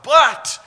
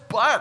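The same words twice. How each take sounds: First: The word is shouted out forcefully. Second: The word is said at normal volume. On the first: It marks a very strong contrast. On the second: It marks an ordinary contrast.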